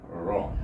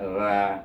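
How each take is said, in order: First: The ra sounds heavy, with the tongue raised. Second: The ra sounds light, with the tongue flat. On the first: The speaker calls it right. "Ra baris atas baca dengan tafkhim tebal ra" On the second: The speaker calls it wrong. "Kalau terendah mendatar dengan ya tu jadi ra ra"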